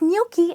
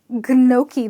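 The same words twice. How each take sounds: First: It starts with a 'ny' sound, g silent. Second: It does not start with a 'ny' sound. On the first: The speaker calls it right. "the G here is silent, and there is an invisible Y" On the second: The speaker calls it wrong. "definitely not gnocchi, because that would be a big blunder"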